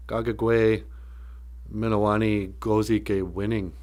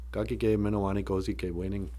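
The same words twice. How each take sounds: First: Measured Ojibwe phrase, in pieces. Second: Soft Ojibwe phrase in one run; quicker, fluent repeat. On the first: Speaker carefully sounding out land of everlasting happiness, measured. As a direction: say it piece by piece, with pauses. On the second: Speaker giving the whole Ojibwe phrase, softly fluent. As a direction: run it together softly, without pauses. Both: Shown as a demonstration.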